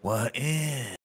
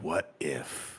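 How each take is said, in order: First: The pitch goes up at the end. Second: The pitch goes down at the end.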